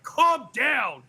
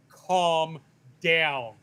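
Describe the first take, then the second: First: Higher and louder, pressing Calm down hard; imitating a congresswoman snapping at a colleague, louder; loud condescending calm down. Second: Condescending calm down. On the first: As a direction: third time, now really talking down. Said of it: "And then the third time". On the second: Retold or imitated. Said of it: "like a man says it to a hysterical woman".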